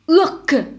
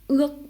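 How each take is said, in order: First: The final k sound is fully released. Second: The final k sound is cut off unreleased. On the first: The speaker calls it wrong. "Vous ne faites pas urk" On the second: The speaker calls it right. "mais vous faites urk. Vous vous arrêtez juste avant de prononcer entièrement le que"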